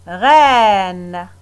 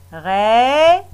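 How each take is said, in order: First: Said in the usual way. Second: "Reine" drawn out, the "ei" held as an open è; modelled word. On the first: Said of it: "Et le dernier mot". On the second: Shown as a demonstration. Teacher modelling the word for pupils, "Reine" drawn out. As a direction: stretch "Reine" so the children hear the sound. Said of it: "Deux syllabes".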